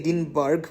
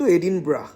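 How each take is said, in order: First: The name ends with a 'burg' sound. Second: The name ends with a short 'bra' sound. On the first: It is read as the spelling suggests. The speaker calls it wrong. "English স্পেলিংটা দেখে এডিনবার্গ মনে হলেও" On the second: It is how Scottish people say it. The speaker calls it right. "Scottish pronunciation কিন্তু এডিনব্রা"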